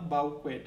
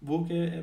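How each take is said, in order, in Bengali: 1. এটি 'bow-kwet' এভাবে উচ্চারিত হয়। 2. এটি 'boo-kay' এভাবে উচ্চারিত হয়। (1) "এরকম যেন উচ্চারণ করো না" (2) "বুকে এরকমও বলে"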